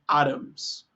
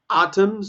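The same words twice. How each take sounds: First: It is said in an American accent, T like R. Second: It is said in a British accent.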